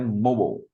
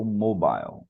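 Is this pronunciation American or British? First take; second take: American; British. First: It is said in an American accent. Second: It is said in a British accent. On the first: "no inglês americano seria mobile" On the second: "No inglês britânico, mobile"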